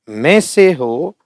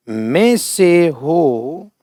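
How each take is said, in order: First: Said in the usual way. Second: में से हो stretched very slowly; drawn-out dictation. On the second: Shown as a demonstration. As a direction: draw out में से हो word by word. (बहुत धीरे खींचकर बोलना)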